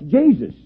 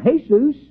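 First: The name is said with an English pronunciation. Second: The name is said with a Spanish pronunciation. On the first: "In English, that's Jesus" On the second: "There are Mexicans by the thousands that are called Jesus. They pronounce it Jesus"

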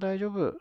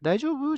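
First: It is a calm statement with falling pitch. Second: It is a question with rising pitch.

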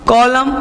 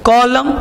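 Both takes have the same delivery.

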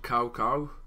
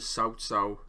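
First: The name is said with an anglicized pronunciation. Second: The name is said with a Mandarin-like pronunciation. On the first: This is how the game says the name. The speaker calls it wrong. "in this game, they call him Cao Cao" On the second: This is the proper pronunciation of the name. The speaker calls it right. "the correct pronunciation for him is Cao Cao"

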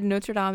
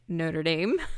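First: It is said the way the film says it. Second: It is said the Southern American way. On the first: "since they actually said Notre Dame in the movie" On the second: "Even though I am from the American South, where I've always heard it Notre Dame"

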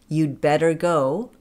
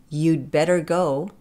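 The two takes are said the same way.

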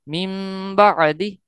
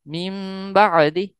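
The two takes are said the same way.

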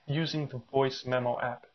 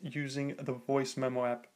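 First: The voice sounds lower in quality and less clear. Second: The voice sounds cleaner and higher in quality. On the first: The speaker calls it wrong. "I'm currently paired via Bluetooth" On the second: The speaker calls it right. "with a wired connection"

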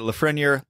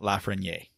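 First: The R sound in the name is pronounced. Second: The R sound in the name is dropped. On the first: The speaker calls it right. "it could be Lafreniere" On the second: The speaker calls it wrong. "It's not Lafreniere"

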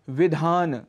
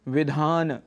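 Both takes have the same delivery.

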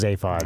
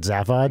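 First: The name is said with British pronunciation. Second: The name is said with American pronunciation. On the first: The speaker calls it right. "with 100% probability, it's pronounced Zaphod" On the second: The speaker calls it wrong. "You know who pronounces it Zaphod? American noobs"

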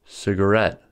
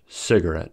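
First: The stress is on the third syllable. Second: The stress is on the first syllable. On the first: "These three-syllable words have stress on the third syllable" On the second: "Cigarette may also be emphasized on the first syllable"

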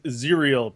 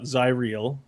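First: The name rhymes with the word cereal. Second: The name does not rhyme with cereal. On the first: The speaker calls it right. "pronounced like cereal" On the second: The speaker calls it wrong. "So not Zyriel"

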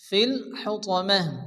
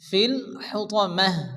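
First: The last word ends with a silent 'h' sound. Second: The last word ends with a silent 'h' sound.

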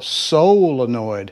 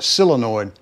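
First: The first syllable sounds like 'sole'. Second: The first syllable sounds like 'sill'. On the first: The speaker calls it right. "but it is a solenoid. S-O-L, solenoid" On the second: The speaker calls it wrong. "Most of the country boys down here call it a solenoid, comically. ... S-I-L. ... It's part of the Southern accent"

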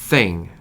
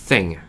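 No difference in how they are said.

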